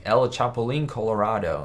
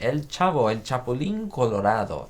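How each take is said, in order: First: An Americanized fake Spanish accent. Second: Names said with a real Spanish accent; native Spanish pronunciation. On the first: Streamer contrasts for chat a fake, incorrect Spanish accent. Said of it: "a fake accent where it'd be like". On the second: Streamer shows chat his real Spanish accent on the names. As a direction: roll it out properly in Spanish. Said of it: "You love my Spanish accent?". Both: Shown as a demonstration.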